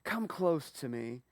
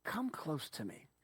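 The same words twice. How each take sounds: First: Soft, slow, gentle; tender invitation. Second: Soft, slow, gentle plea; tender invitation. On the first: Joseph repeating the call to his brothers, soft and slow. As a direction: ease it out quietly, drawn out. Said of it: "you don't get close to the governor". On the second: Joseph inviting his frightened brothers near, soft and slow. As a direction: draw them in softly, slowly. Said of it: "Joseph said to his brothers". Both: Acted.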